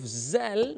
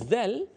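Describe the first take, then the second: First: It starts with a plain 'z' sound, tongue inside. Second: It starts with a 'th' sound, tongue between teeth. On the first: The speaker calls it wrong. "kita tukar kepada huruf zal macam ni. Salah ni" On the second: The speaker calls it right. "original zal"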